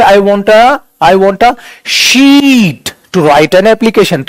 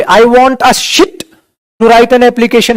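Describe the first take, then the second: First: "sheet" stretched out slowly with a long ee; long sound. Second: "sheet" said wrongly with a short i, like "shit"; short sound. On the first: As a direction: hold the vowel in "sheet" very long. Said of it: "खिंच रही है।". ("sheet" को खूब खींचकर, लंबी ई से) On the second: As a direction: cut the vowel in "sheet" short. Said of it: "No dear, आप इसको क्या बोलोगे?". ("sheet" को छोटी इ से, "शिट" जैसा) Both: Shown as a demonstration.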